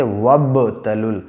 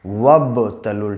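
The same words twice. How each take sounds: First: वब तलुल slowly, with the ब bouncing and breaking off from तलुल; qalqala demo. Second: वब तलुल very slowly, the ब echoing clearly before तलुल; slower qalqala repeat. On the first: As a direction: let the ब in वब knock and split before तलुल. (क़लक़ला के साथ धीमा उच्चारण) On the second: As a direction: stretch out वब तलुल so the bounce on ब is heard. (और भी धीमी क़लक़ला) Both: Shown as a demonstration. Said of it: "आवाज़ टक्कर खा के अलग हो जाती है".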